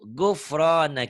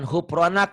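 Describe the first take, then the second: First: The word begins with a g sound. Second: The word begins with a soft h sound. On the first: The speaker calls it right. "G. Guru" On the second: The speaker calls it wrong. "Ini bukan hupronak"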